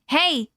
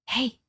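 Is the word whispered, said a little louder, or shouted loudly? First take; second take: loud; little louder. First: It is said loudly and aggressively. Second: It is said a little louder.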